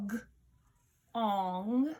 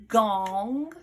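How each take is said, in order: First: G-ong split into its sounds g and ong; teacher sounds out g-ong for spelling; segmented sounds. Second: Said in the usual way. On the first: Shown as a demonstration. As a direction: stretch g-ong into separate sounds, slowly.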